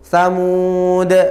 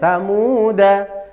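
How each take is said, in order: First: The word ends on a bare d consonant. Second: The word ends with a short vowel after d. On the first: The reader stops at this word. "kalau kita baca waqaf atau terpaksa waqaf maka dalnya menjadi su, sukun" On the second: The reading continues on without stopping. "kalau kita baca wasol danya pen pendek"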